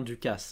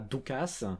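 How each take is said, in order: First: The first vowel is a French 'u'. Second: The first vowel sounds like 'oo'. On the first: The speaker calls it right. "c'est bien Ducas" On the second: The speaker calls it wrong. "c'est pas Ducas"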